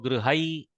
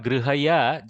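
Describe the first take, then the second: First: The word ends with a short half 'y' sound. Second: The word ends with a full 'ya' syllable. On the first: The speaker calls it right. "just go grihai" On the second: The speaker calls it wrong. "instead of grihaya"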